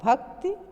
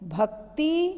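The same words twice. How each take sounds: First: The final vowel is short. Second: The final vowel is long. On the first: The speaker calls it right. "ये शुद्ध रूप है" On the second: The speaker calls it wrong. "ये गलत है"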